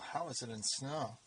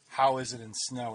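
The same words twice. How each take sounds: First: The question is asked in a wry, smirking tone. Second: The question is asked in a plain, neutral tone.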